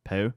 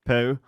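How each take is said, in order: First: Country poo. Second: "Poo" in a light British accent. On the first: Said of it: "That sounded country". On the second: Telling her friend poo sounds better in a British accent. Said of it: "say it with a British accent". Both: Shown as a demonstration.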